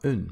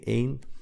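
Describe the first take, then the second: First: The word is said lightly, without emphasis. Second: The word is said with strong emphasis. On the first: It is the article meaning a. "other than that, it's een. That's the pronunciation you use" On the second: It means the number one. "when you really want to emphasize this number one, then you say één. You also put the accent on the, the E twice"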